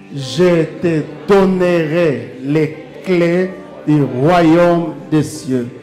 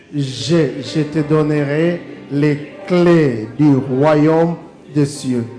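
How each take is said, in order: The two takes are said the same way.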